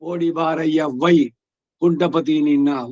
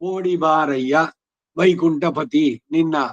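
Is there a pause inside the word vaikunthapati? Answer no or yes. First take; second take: yes; no. First: A pause breaks the name after vai. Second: The name is said whole with no pause. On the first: The speaker calls it wrong. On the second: The speaker calls it right.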